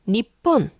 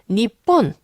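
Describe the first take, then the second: Both takes have the same delivery.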